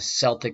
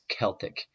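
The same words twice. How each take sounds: First: The word begins with a soft S sound. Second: The word begins with a hard K sound. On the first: The speaker calls it wrong. "So it's not the Celtic. The soft C comes later" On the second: The speaker calls it right. "It's a hard C or a K sound"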